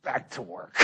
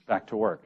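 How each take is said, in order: First: Much softer, curt command; stern order. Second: Said in the usual way. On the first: Retold or imitated. Priest sends worker back with a soft curt order. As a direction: clip it off like the iron fist. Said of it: "kind of friendly, and then there'd be this little back to work". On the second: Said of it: "this little back to work".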